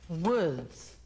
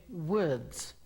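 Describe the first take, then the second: The two takes are said the same way.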